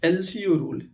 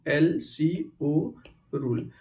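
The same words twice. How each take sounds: First: Said in the usual way. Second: "LCO rule" very slow, each letter drawn out; slow dictation. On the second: Shown as a demonstration. Teacher repeats the rule name for students, slowly letter by letter. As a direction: spell out "LCO" letter by letter, unhurried.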